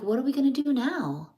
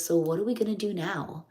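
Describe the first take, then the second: First: Repeated much higher with stress on gonna; higher, insistent repeat. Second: Said in the usual way. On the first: Retold or imitated. Husband repeating his question to puzzled wife, high insistent repeat. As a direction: press the question again, pitched up. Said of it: "He's like". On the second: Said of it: "He says".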